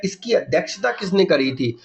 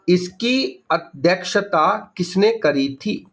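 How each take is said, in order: First: Said in the usual way. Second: Very slow, spaced-out question; slow dictation. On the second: Shown as a demonstration. Teacher dictating an exam question to students, very slowly. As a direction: spell the question out word by word.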